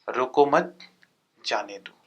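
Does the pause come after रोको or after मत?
after मत. The pause comes after मत.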